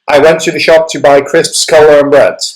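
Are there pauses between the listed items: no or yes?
no. The list is run together without pauses. The speaker calls it wrong. "I would not say, ... Doesn't sound clear"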